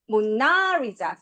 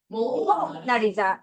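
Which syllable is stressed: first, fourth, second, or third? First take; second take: second; first. First: The stress is on the second syllable. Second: The stress is on the first syllable. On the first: "두 번째" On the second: "제일 앞에 강세 줘볼 거야"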